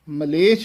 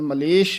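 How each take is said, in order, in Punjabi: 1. ਇਹ ਸ਼ਬਦ 'chh' ਦੀ ਆਵਾਜ਼ ਨਾਲ ਖ਼ਤਮ ਹੁੰਦਾ ਹੈ। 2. ਇਹ ਸ਼ਬਦ 'sh' ਦੀ ਆਵਾਜ਼ ਨਾਲ ਖ਼ਤਮ ਹੁੰਦਾ ਹੈ। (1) "ਛੱਛਾ ਬੋਲਣਾ ਹੈ" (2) "ਕਈ ... ਮਲੇਸ਼ ਬੋਲ ਜਾਂਦੇ ਹਨ"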